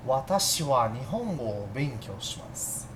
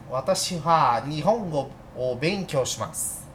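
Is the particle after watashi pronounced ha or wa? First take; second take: wa; ha. First: The particle is pronounced with a w sound. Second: The particle is pronounced with an h sound. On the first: The speaker calls it right. "Soa mais suave" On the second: The speaker calls it wrong. "Sou estranho"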